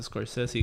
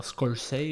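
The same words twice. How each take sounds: First: "Scorsese" said in full as "skor-SEH-see"; softly offered "skor-SEH-see"; alternative pronunciation. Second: "Scorsese" said as "skor-SAY", final syllable dropped; "Scorsese" ending in a rising "say"; unsure pronunciation. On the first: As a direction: give "Scorsese" all three syllables, ending in "see". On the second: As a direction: try "Scorsese" tentatively as "skor-SAY". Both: Shown as a demonstration. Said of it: "no sé cómo se pronuncia".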